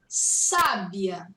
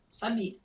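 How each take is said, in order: First: The stress is on the first syllable, drawn out. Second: The stress is not on the first syllable. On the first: It means wise. "acute accents emphasize the vowel and just draw it out a bit" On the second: It means I knew. "I knew, eu sabia"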